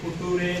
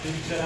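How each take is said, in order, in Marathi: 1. मधला व्यंजन साधा 't' आवाजाचा आहे. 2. मधला व्यंजन 'ch' आवाजाचा आहे. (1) "फुटुरे नाही" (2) "लक्षात फ्युचर आहे"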